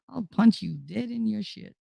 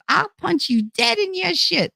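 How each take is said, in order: First: Said in the usual way. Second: Put-on much higher, playful tough-girl threat; hammed-up Jersey threat; mock tough threat. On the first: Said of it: "That's my, my saying". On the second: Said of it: "That's what I say".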